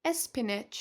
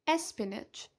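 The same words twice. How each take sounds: The two takes are said the same way.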